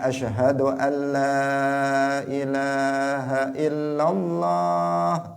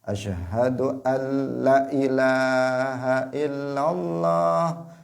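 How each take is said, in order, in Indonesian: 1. Vokal pada 'la' dibaca panjang. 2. Vokal pada 'la' dibaca pendek. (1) "yang harusnya" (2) "dia lahnya dipendekkan yang harusnya dipanjangkan"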